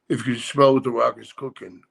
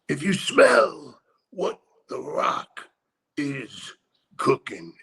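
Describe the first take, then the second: First: It is said in a flat monotone. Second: It is said with lively inflection.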